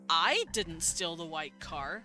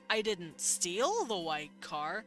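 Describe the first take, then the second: First: The stress is on the word I. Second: The stress is on the word steal. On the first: Someone else did it. "I'm suggesting I didn't do it, but someone else did" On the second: Something else was done with the car. "I'm suggesting I did something else with the car"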